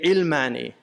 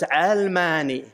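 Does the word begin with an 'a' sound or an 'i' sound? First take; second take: i sound; a sound. First: The first vowel sounds like 'i', as in ilm. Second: The first vowel sounds like 'a', as in alam. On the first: It sounds related to knowledge. The speaker calls it wrong. "they always mispronounce uh, it, the Arabs. They say ilmani" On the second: It is related to the world. The speaker calls it right. "the original ta'rib was almani. It's related to the world"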